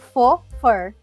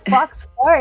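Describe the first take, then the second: First: The first word ends in a vowel, no ks. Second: The first word ends with a clear ks sound. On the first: It means fake fur. The speaker calls it right. "na realidade se fala faux fur" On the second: It sounds like fur from a fox. The speaker calls it wrong. "se tu falar fox fur, eles vão pensar que é pelo de raposa"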